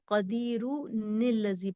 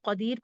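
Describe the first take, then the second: First: The word ends in -un, linked into the next word. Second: The word ends on a plain r, then stops. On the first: The reader joins the two verses without stopping. "अगर नहीं रुकते हैं तो कदीरू निल्लजी पढ़ेंगे" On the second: The reader pauses at the end of the verse. "अगर आप यहाँ रुक जाते हैं तो आप इसको कदीर पढ़ेंगे"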